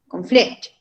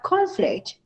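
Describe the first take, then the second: First: The stress is on the second syllable. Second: The stress is on the first syllable. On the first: It is used as a verb. "In the second syllable" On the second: It is used as a noun. "On the first syllable"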